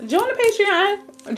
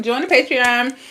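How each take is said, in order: First: Drawn-out high plug; high sing-song. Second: Said in the usual way. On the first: Acted. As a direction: sing it high and slow, teasing.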